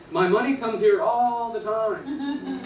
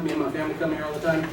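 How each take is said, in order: First: "money" stressed, slow and higher; slow down and lean on "money"; stressed punchline. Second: Said in the usual way. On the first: Shown as a demonstration. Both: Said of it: "translation is".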